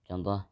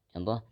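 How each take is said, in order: No difference in how they are said.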